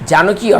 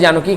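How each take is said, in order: First: It is split into two words as a question. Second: It is joined into one word as a name. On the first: It asks whether you know the other name. "যদি আমরা এটাকে ভাঙি ... অর্থাৎ question mark" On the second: It gives the other name itself. "সীতার অপর নাম নিশ্চয়ই জানো কি, কারণ সেই জনকের কন্যা"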